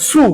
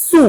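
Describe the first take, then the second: First: "সু" with a thicker, heavier s sound; emphatic, thickened s in "সু"; thick, heavy s. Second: Said in the usual way. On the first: Shown as a demonstration. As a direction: say "সু" with a full, heavy s, not the thin one. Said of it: "মানে একটু মোটা হবে". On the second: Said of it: "এই সিনের সাথে এটার সাথে অনেক সময় আউলে হয়".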